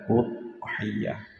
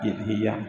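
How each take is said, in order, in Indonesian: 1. Kata ini diawali dengan vokal u. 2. Kata ini diawali dengan vokal i. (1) "dibaca udhiyah" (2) "tidak dibaca idhiyah"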